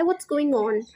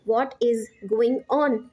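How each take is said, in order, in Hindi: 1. शब्द तेज़ी से एक-दूसरे में मिल जाते हैं, 'what is' मिलाकर। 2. हर शब्द सामान्य स्पीड में अलग-अलग बोला जाता है।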